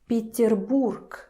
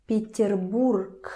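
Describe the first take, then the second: Both takes have the same delivery.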